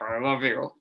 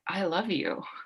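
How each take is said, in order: First: It is said in an angry tone. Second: It is said in a calm, warm tone.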